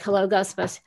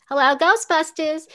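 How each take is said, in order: First: Said in the usual way. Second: Janine's voice, higher and louder. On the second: Shown as a demonstration. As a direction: give it the Janine receptionist snap, higher and louder. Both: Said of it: "Yeah, like".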